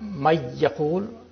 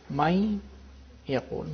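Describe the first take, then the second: First: The n merges fully into the y. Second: The n keeps its nasal sound before y. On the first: The speaker calls it wrong. "It's not may yaqul" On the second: The speaker calls it right. "nasality of the noon is there"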